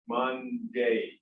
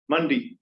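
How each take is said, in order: First: The word is said fully and carefully. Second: The word is said in a reduced, casual way. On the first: This is how people believe they say it. "We all think we say that" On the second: This is how people actually say it in fast talk. "What actually matched was that"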